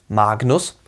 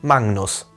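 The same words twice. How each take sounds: First: The middle is a plain g followed by n. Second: The middle is a nasal ng followed by n. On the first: The speaker calls it wrong. "nicht wie G N" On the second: The speaker calls it right. "wie N G N ausgesprochen"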